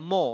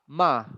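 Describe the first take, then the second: First: The vowel is a rounded 'oh' sound. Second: The vowel is an open 'ah' sound. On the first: The speaker calls it wrong. "it's not mo" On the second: The speaker calls it right. "It's like a kind of ah ma"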